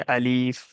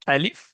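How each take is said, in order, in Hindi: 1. दूसरा स्वर लंबा है। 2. दूसरा स्वर छोटा है। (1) "ना कि अलीफ" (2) "अलिफ ना कि अलीफ"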